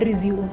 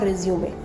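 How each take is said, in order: First: The word ends on 'zoom' with no final vowel. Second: The word ends with an added 'ay' vowel. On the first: It means to start something again. The speaker calls it wrong. "More than fifty percent of the people call it रिज्यूम" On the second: It means a CV for a job. The speaker calls it right. "Not रिज्यूमे"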